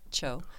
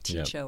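First: The name begins with a plain ch sound. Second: The name begins with a separate t sound. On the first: The speaker calls it right. "No, it's just Cho, like the first syllable of chocolate" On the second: The speaker calls it wrong. "A lot of people say T-C-H-O or T-Cho or whatever"

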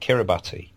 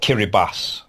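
First: The name is said the anglicized, spelled-out way. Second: The name is said the native, local way. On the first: The speaker calls it wrong. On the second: The speaker calls it right.

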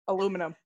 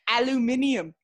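First: It is said the American way, four syllables. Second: It is said the British way, five syllables. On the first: The speaker calls it wrong. "not the Rebels' English" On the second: The speaker calls it right. "That's the Queen's English"

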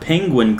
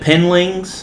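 First: The word is said as penguin. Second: The word is said as penlings. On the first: The speaker calls it right. "didn't say the word penguin correctly" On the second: The speaker calls it wrong. "He said penlings"

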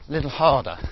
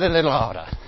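First: The h at the start of harder is pronounced. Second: The h at the start of harder is dropped. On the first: "I'll say it with an H this time"

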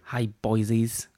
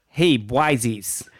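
First: It is said in a London accent. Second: It is said in a New York accent.

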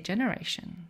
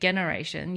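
First: The word begins with a soft J sound. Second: The word begins with a hard G sound. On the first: The speaker calls it right. "you say generation" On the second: The speaker calls it wrong. "you don't say generation"

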